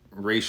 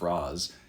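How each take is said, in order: First: The name does not sound like 'Roz'. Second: The name sounds like 'Roz'. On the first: The speaker calls it right. "I think it's pronounced Ra's al Ghul from the animated series" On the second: The speaker calls it wrong. "the Batman Begins pronunciation of Roz"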